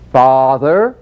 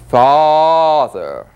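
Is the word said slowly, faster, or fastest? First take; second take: faster; slowly. First: It is said a little faster, still stretched. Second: It is said slowly with a long stretch.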